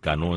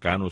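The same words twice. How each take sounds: First: The stress falls on the last syllable. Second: The stress falls on the first syllable. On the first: This is how the name is said in the Dominican Republic. "el Cano en Dominicana" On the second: This is how the name is said in Cuba. "en Cuba se pronuncia Cano sin acento"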